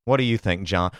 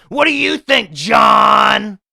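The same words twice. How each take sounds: First: Said in the usual way. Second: High, loud put-on yell; mock shout. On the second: Podcaster throwing the question back at listener John, hammed-up high shout. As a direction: holler the question, blasting the name.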